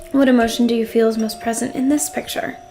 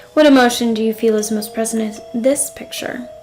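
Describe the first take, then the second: Both takes have the same delivery.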